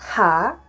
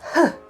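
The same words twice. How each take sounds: First: It is said as the full letter name. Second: It is said as a short bare breathy sound. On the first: It is the letter on its own. "The H again" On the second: It is the letter inside a word. "turns into H"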